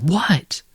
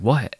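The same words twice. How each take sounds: First: Mock-irritated, pitched up; higher annoyed what. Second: Said in the usual way. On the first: Friend fed up after being called again, higher annoyed what. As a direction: retell the friend's exasperated what, much higher.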